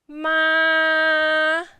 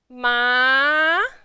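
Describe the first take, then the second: First: The pitch stays high and level. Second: The pitch climbs upward. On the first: "Keep your pitch a little bit high and flat" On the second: "tone number two"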